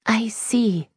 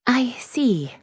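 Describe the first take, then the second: First: High, strained little acknowledgement; taken aback, pitched up; flat and strange. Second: High, effortfully polite reply; strained politeness, pitched up; forced cordial. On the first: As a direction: answer oddly, without enthusiasm. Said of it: "her voice coming out flat and strange". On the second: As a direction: fight to sound cordial. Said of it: "fighting to make her voice cordial". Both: A narrator's reading.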